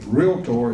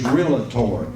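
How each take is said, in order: First: The word is said with two syllables. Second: The word is said with an extra syllable. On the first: The speaker calls it right. "realtor is a two-syllable word" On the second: The speaker calls it wrong. "most often mispronounced is realtor. That is incorrect"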